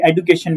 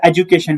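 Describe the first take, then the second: First: "एजुकेशन" with a d sound, e-du-kay-shun; other common variant. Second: "एजुकेशन" with a j sound, e-ju-kay-shun; one common variant. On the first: Teacher quoting how some say it, "एजुकेशन" with a d. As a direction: say "एजुकेशन" with a plain "du". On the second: Teacher comparing variants, "एजुकेशन" said with a j. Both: Shown as a demonstration. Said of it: "कोई एजुकेशन बोलता है".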